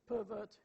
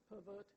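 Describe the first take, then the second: First: The stress is on the first syllable. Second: The stress is on the second syllable. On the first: It is used as a noun. "the noun pervert ... in the noun, the first syllable is much longer" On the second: It is used as a verb. "the verb pervert ... the second syllable in the verb is much louder and longer"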